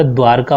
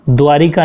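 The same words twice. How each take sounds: First: "द्वारका" with no i after r; correct pronunciation. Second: "द्वारिका" with an i after r; wrong pronunciation. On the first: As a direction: say "द्वारका" as dvaar-ka. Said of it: "द्वारका होगा". ("द्वारका" का सही उच्चारण, बिना इ के) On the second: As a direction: say "द्वारिका" as dvaa-ri-ka. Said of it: "द्वारिका नहीं होगा". ("द्वारिका" में रि, गलत उच्चारण) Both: Shown as a demonstration.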